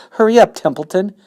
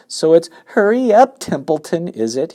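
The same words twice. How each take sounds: First: High, loud, pressing plea; urgent plea. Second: High, loud mock of the pig's plea; mocking Wilbur. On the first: Acted. Pig pleads with the rat, high loud urging. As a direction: hurry him along, loud. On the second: Rat mimics the pig's plea, high mocking voice. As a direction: parrot him back scornfully. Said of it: "imitating Wilbur's voice".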